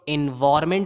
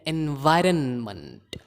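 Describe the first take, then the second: First: No n sound comes before 'ment'. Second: An n sound comes before 'ment'. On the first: The speaker calls it wrong. "इसको बहुत लोग एनवायरमेंट बोलते हैं जो कि गलत है" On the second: The speaker calls it right. "मंट एनवायरनमेंट"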